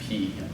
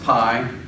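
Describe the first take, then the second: First: The name ends with an 'ee' vowel. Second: The name ends with an 'eye' vowel. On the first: This is the Greek pronunciation. "in Greek we pronounce it p" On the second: This is the maths pronunciation. "the math term is pronounced pi"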